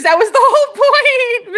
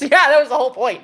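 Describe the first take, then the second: First: Matrix agent voice. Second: Said in the usual way. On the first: Shown as a demonstration. To a viewer who says she sounds like The Matrix guy, hammed-up agent voice. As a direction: imitate the Matrix villain, laughing.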